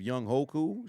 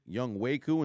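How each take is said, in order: First: The second part begins with an h sound. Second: The second part begins with a w sound. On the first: The speaker calls it wrong. "instead of Young Hoku" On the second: The speaker calls it right. "It's pronounced um Young Waku"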